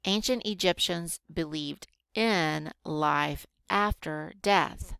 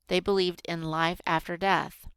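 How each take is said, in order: First: Unhurried teacher reading with spaced-out words; slow reading. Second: Said in the usual way. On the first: Shown as a demonstration. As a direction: read slowly, word by word. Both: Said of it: "Did you see how slow I read".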